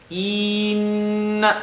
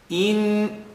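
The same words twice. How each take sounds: First: The first vowel is drawn out long. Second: The first vowel is kept short. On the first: The speaker calls it wrong. "you're stretching the alif" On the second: The speaker calls it right. "There's nothing that stretches it"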